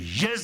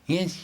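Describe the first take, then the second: First: It is said firmly, with alert, confident energy. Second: It is said feebly, like a puppy's yapping. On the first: The listener truly confirms having heard. The speaker calls it right. "the spirit, the alertness, and the affirmation of a confirmation" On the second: The listener answers without real commitment. The speaker calls it wrong. "like little puppy"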